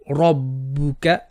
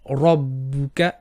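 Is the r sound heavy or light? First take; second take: heavy; heavy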